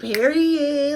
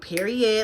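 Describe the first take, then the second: First: It is said with lively flair. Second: It is said in a plain, basic way.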